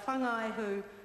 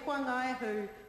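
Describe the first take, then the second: First: The opening letters are not said as a 'wh' sound. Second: The opening letters are said as a 'wh' sound. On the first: It is the habitual way learned elsewhere. "when I've always driven across it ... and pronounced it" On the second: It respects how local people say the name. "to pronounce the W H as a wh"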